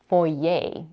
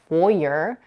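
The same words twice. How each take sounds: First: The word ends with no R sound. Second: The word ends with an R-colored vowel. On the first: "without the R" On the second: "with an R-colored schwa at the end"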